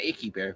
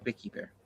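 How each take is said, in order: First: The name begins with a vowel, without V. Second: The name begins with a clear V sound. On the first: The speaker calls it wrong. "not Icky Bear" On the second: The speaker calls it right.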